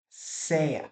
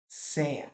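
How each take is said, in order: No difference in how they are said.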